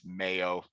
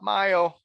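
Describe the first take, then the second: First: "mayo" said the English way, like "may-oh". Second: "mayo" said the German way, like "my-oh"; "mayo" with a "my" sound, said higher and louder as the way they insist on. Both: Shown as a demonstration. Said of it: "think I need to say mayo".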